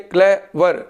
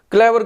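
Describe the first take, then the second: First: clever split in two with a pause; syllable by syllable. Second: Said in the usual way. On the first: Shown as a demonstration. Teacher shows students the two syllables of clever, said haltingly in parts. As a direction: say clever as clay, then वर, separately. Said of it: "रुक रुक के". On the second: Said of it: "clever को बोलूँ रुक रुक के".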